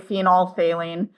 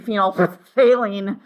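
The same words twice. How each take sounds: First: The middle 'ph' sound is left out. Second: The middle 'ph' sound is clearly pronounced. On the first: "we actually just don't pronounce the P H" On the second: "really want to say phenolphthalein, which is kind of fun"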